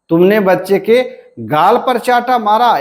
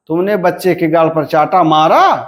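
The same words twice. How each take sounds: First: The stress falls on the word गाल. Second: The stress falls on the word मारा. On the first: "हमारा बलाघात कहाँ है, गाल पर है।" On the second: "यहां पर बलाघात कहां पर हुआ, मारा पर हुआ।"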